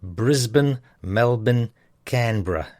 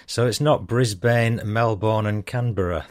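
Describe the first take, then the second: First: Brisbane as "Brizbn", Melbourne as "Melbn", Canberra as "Canbra", vowels swallowed; broad Aussie "Brizbn, Melbn, Canbra"; strong Aussie pronunciation. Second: "not" stressed, then Melbourne with a full "born" ending and Canberra with its r sounded; the careful, non-broad way to say Melbourne and Canberra; corrected pronunciation. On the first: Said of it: "a bit of strong pronunciation". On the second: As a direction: spell out Brisbane, Melbourne and Canberra more carefully, with fuller endings. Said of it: "Ah, says me". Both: Shown as a demonstration.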